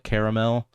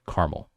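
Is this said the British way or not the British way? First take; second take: British; not British. First: It is pronounced the British way. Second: It is not pronounced the British way. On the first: It is meant to sound fancy. The speaker calls it wrong. "The U K people? They call it caramel because they want to be extra fancy" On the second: It is the original way to say it. The speaker calls it right. "Real pronunciation, history wise, is caramel"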